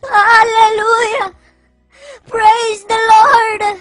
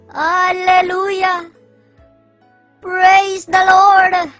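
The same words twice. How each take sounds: First: It is said crying, in a fake sincere voice. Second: It is said in a normal, uncrying voice.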